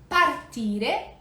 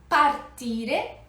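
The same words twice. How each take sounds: The two takes are said the same way.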